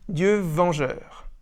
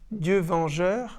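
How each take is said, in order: First: The syllable 'ven' is accented and shortened. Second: All syllables are even, with no accent on 'ven'. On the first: The speaker calls it right. "Vent est accentué, raccourci" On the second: The speaker calls it wrong. "au lieu de dire"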